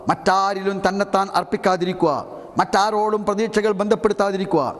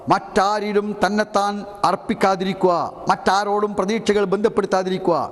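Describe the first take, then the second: The two takes are said the same way.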